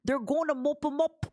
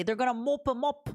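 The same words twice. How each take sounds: First: Whispered repeat of They're gonna mop 'em up; half-playful mock British whisper. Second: Mock British accent. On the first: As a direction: breathe the line as a whisper. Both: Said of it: "as the children say".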